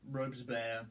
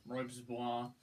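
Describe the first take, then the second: First: Said in the usual way. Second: "Robespierre" with a French ending, "-pierre" like "bwar"; retry "Robespierre" the French way, "robz-bwar"; French-style name. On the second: Shown as a demonstration.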